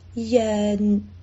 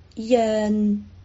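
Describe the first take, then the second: Both takes have the same delivery.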